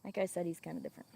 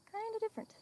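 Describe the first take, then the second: First: Said in the usual way. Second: Kinda different squeaked up much higher and softer; playful falsetto repeat of kinda different; mock high echo. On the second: Shown as a demonstration. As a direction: repeat the words in a silly high voice.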